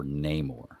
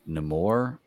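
First: Namor as NAY-mor; Namor, opening like "neigh"; second pronunciation variant. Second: Namor as nuh-MOR; Namor, opening on a short "nuh"; first pronunciation variant. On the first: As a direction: say Namor with a long A first. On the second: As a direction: say Namor with a reduced first vowel. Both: Shown as a demonstration. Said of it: "I say it different ways".

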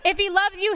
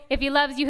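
First: "you" lifted and leaned on; stress on you. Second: "loves" carries the weight; "loves" as the one prominent word; stress on loves. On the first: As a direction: hit the word "you", not "loves". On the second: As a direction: lean on "loves", let "you" fall away. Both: Shown as a demonstration.

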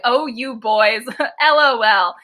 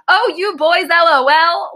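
First: Said in the usual way. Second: Put-on "Oh, you boys, L O L" pitched high in one run, as if naming the boys L O L; misplaced emphasis. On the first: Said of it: "He doesn't say it like". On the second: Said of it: "He put the emphasis on the wrong words".

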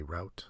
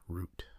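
First: Route said to rhyme with out. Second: Root said to rhyme with boot; oo pronunciation. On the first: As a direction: say route with an ow vowel. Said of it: "I sometimes say route". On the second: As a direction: say root with a long oo. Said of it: "I sometimes say route, sometimes root". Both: Shown as a demonstration.

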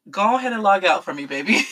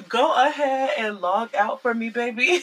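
First: Quick dismissal. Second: Laughing through a repeated brush-off; laughing dismissal. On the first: Telling him to log off. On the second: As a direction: chuckle as you tell him to log off. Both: Real, not acted.

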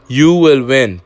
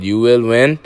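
First: "You will win" pushed louder and higher, landing hard on "You"; louder repeat. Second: Said in the usual way. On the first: Real, not acted. Repeating to listeners "You" will win, louder. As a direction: hit "You" harder the second time.

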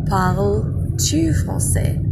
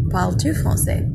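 First: "Parles-tu français?" said slowly with rising tune; slow clear French. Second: Said in the usual way. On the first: Shown as a demonstration. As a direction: carefully sound out "Parles-tu français?". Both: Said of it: "I switch or invert the subject and a verb".

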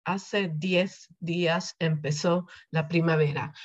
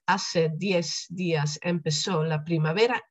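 First: "diez" said with a lisped th at the end, like "dieth"; Madrid pronunciation. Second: "diez" ending in a plain s, like "dies". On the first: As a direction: give "diez" the Castilian th sound at its close. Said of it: "als je het Spaans van Madrid spreekt". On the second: Teacher showing the seseo of South America, "diez" with an s. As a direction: say "diez" with an s, no lisp. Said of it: "die Z gewoon als S uitgesproken". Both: Shown as a demonstration.

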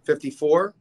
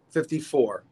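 First: Fifty-four? said as a question with a rising end; unsure guess, lifting "Fifty-four?" at the end; asking tune. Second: Fifty-four. said as an answer with a falling end; settling tune. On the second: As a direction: confirm it, dropping "Fifty-four." to a close. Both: Real, not acted. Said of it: "So what was he?".

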